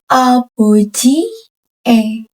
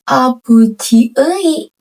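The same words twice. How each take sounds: First: The final syllable is read as 'e'. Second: The final syllable is read as 'ui'. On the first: The speaker calls it right. "Karena E di belakang dibacanya E" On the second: The speaker calls it wrong. "Ini bukan abuji E"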